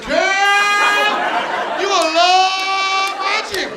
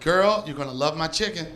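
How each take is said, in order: First: It is read in an exaggerated commercial voice. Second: It is read in a polished, trained acting voice.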